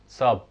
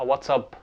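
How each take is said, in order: First: Only the final syllable is said. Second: The words run together as one word. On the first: "فصاب ديت هي اختصار لواتساب" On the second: "هما بيقولوها واتساب"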